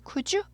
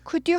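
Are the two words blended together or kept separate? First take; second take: blended; separate. First: The two words blend into one soft sound. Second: The two words are kept separate and crisp. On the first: The speaker calls it right. "could you 이렇게 됩니다" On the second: The speaker calls it wrong. "could you 하지 않고"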